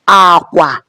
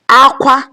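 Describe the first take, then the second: First: Both syllables are on a low tone. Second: Both syllables are on a high tone. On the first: It means bed or bridge. "which is bed or bridge, low, low" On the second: It means cry. "cry, high, high"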